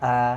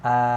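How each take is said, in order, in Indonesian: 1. Bunyi vokalnya tebal, dengan mulut terbuka lebar. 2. Bunyi vokalnya tebal, dengan mulut terbuka lebar.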